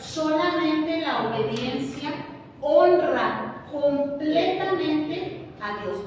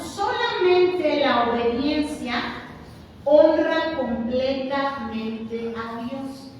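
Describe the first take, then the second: First: "honra" drawn out, slow and firm; slow emphatic repeat. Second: Each word weighed slowly; solemn slow emphasis on "solamente" and "honra"; slow emphatic stress. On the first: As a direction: repeat it slowly for the congregation to echo. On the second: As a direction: lay it down slow and firm, word by word. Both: Shown as a demonstration. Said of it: "Otra vez".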